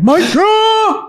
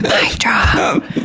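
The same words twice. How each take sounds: First: It is said loudly with strong energy. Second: It is whispered quietly into the microphone. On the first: "But I feel like I should be like, Louder!" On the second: "I actually whispered it into the microphone"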